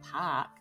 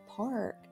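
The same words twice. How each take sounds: First: The r is dropped, like a Boston accent. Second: The r is clearly pronounced.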